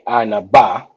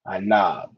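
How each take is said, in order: First: The word ends with a final vowel sound. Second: The word ends cut off on the consonant. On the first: The speaker calls it wrong. "it wouldn't be anaba" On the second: The speaker calls it right. "you kind of cut it off at the at the consonant sound"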